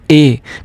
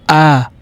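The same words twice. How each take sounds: First: The letter is said as in English. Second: The letter is said the German way. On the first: The speaker calls it wrong. "we will not pronounce alphabet A as A" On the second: The speaker calls it right. "We will pronounce it as A"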